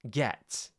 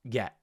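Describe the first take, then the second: First: The final T is clearly released. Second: The final T becomes a glottal stop.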